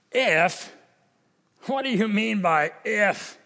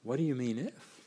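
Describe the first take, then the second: First: An indignant, testy "What do you mean by if?"; a hint of annoyance, throwing the "if" back; irritated Jesus. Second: Soft, much quieter "What do you mean if?", inviting; gentle invitation. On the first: Preacher voicing Jesus as mildly irritated at the father. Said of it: "Is he irritated? Is he indignant? Is he angry?". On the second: Pretend. Preacher voicing Jesus gently inviting the doubting father. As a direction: ask it tenderly, as an invitation to trust. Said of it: "Could it be that he's saying".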